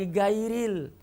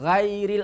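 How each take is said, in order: First: It starts with a plain hard g sound. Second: It starts with a thin, light gh sound. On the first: "apalagi gairil. Itu salah besar" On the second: "bukan ghairil"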